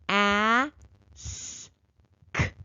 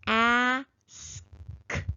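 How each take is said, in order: First: The sounds are said slowly, spaced apart. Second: The sounds are said a little faster. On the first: "Let's sound it out slowly at first" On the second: "Let's do it again a little faster"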